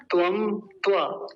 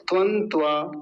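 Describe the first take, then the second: First: त्वम with a full closing m, then त्वा, slowly. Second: त्वं with a nasal anusvara ending, then त्वा. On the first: Teacher giving students the m-ending version, slow. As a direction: close त्वम on a clear m before त्वा. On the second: Teacher giving students the anusvara version. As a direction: let त्वं end nasal instead of on m. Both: Shown as a demonstration. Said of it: "अगर ये अनुस्वार हटाएंगे".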